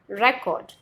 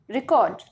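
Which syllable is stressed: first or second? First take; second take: first; second. First: The stress is on the first syllable. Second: The stress is on the second syllable. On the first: It names evidence of what happened in the past. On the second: It means converting a voice into permanent form.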